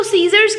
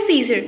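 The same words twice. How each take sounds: First: "सीजर्स" with a final Z-like S; correct plural ending. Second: "सीजर" with no final S; common mispronunciation. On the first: Teacher correcting most learners, final S sounded in सीजर्स. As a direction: add the buzzed S at the end of "सीजर्स". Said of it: "हम इसको सीजर्स कहते क्यों हैं". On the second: Teacher quoting what most people say, सीजर without final S. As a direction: end "सीजर" on the R, singular-sounding. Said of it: "Mostly person इसको पढ़ते हैं". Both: Shown as a demonstration.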